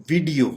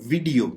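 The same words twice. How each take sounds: No difference in how they are said.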